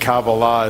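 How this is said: It is said in the Sephardic pronunciation.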